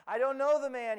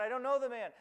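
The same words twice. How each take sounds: First: Louder, higher, pushing the denial hard; insistent denial. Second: Said in the usual way. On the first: Acted. Peter denies Jesus to the crowd, loud and insistent. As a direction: Peter insists he doesn't know Jesus, raising his voice.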